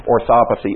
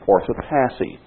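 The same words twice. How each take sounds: First: Orthopathy as or-THOP-uh-thee; alternative pronunciation. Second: Orthopathy as OR-tho-PATH-ee; first pronunciation variant. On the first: Preacher offering another option, orthopathy said or-THOP-uh-thee. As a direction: stress the second syllable of orthopathy, weak "path". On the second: Preacher offering his coined word, orthopathy said OR-tho-PATH-ee. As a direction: say orthopathy with stressed "path", short a as in "cat". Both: Shown as a demonstration. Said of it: "Or, if you prefer".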